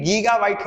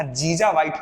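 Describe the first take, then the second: First: गीगा बाइट with a hard g, gee-ga byte; the correct गीगा बाइट, both g sounds hard; correct reading. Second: जीजा बाइट with a j sound, jee-ja byte; student's wrong reading. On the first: Shown as a demonstration. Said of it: "जीजा बाइट कुछ होता ही नहीं है". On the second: Retold or imitated. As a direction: quote the student's mistaken जीजा बाइट, j in place of g. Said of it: "तो उसने कहा जीजा बाइट".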